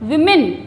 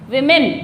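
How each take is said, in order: The two takes are said the same way.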